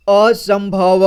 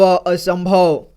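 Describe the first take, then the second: First: Said in the usual way. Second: असंभव drawn out slowly, syllable by syllable. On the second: Shown as a demonstration. Teacher showing children how to join sounds, slow syllable-by-syllable reading. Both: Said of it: "एक एक जोड़ करके इसी तरह से पढ़ना है".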